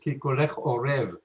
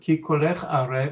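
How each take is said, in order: First: The last word is said with an 'o' vowel. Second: The last word is said with an 'a' vowel. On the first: Your voice is like a raven's. The speaker calls it wrong. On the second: Your voice is pleasant. The speaker calls it right.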